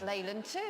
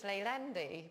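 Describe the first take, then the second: First: The name ends with the word 'two'. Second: The name ends with an 'ee' sound. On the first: The speaker calls it wrong. "he thought that was two" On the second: The speaker calls it right. "of course he means Leylandi"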